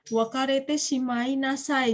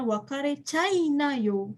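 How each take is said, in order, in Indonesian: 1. Setiap suku kata dalam frasa ini diucapkan lengkap. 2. Frasa ini dipadatkan menjadi suku kata yang lebih sedikit dan lebih pendek.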